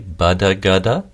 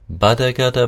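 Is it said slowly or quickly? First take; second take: slowly; quickly. First: It is said slowly. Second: It is said quickly.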